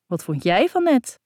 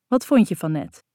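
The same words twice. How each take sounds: First: JIJ leaning high, question thrown back; stress on JIJ. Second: Said in the usual way. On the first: Acted. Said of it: "kaats ik terug".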